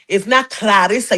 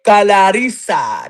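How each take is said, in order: First: Said in the usual way. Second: "Clarissa" said slowly as "Kala-rissa", with an extra A before the L; slow demo of the name. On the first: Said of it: "You gotta put an A in front". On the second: Shown as a demonstration. Host to listeners, spelling out the name slowly. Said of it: "put an A in front of the L".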